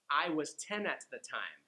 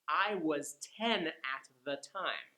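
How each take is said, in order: First: The sentence is said at a quicker pace. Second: The sentence is said at a slow pace.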